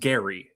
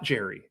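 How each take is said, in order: First: The name begins with a hard G sound. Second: The name begins with a J sound. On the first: The speaker calls it right. "his name was pronounced Gary" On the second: The speaker calls it wrong. "It's not Jerry"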